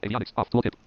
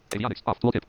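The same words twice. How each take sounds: The two takes are said the same way.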